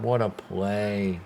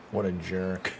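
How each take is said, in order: First: Said in the usual way. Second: Quiet, lower mock grumble at the fielder. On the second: Annoyed fan jokingly insulting the fielder, quiet grumble. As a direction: mutter it as a joking jab. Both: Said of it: "No, that's a great play".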